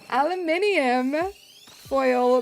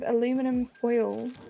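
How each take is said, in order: First: Aluminium is said in a British accent. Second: Aluminum is said in an American accent.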